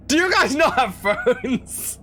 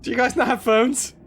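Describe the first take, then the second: First: Slow, laughing mock question. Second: Said in the usual way. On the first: Mocking the stranger's question to Canadian chat, laughing. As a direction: drag it out through a laugh. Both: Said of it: "repeated as mocking quote".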